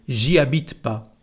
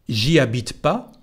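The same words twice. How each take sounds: No difference in how they are said.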